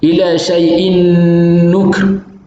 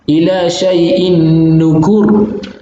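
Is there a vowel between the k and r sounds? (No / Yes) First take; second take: No; Yes. First: No vowel is heard between k and r. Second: A short u vowel comes between k and r. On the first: "membaca dengan iskan kaf" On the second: "membaca dengan dhammah"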